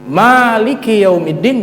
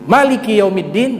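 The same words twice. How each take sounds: First: The first vowel of Maliki is long. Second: The first vowel of Maliki is short. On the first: God rules the whole Day of Judgment. "bisa dibaca apa? Panjang" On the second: God rules only the matters within the Day of Judgment. "Bisa dibaca pendek"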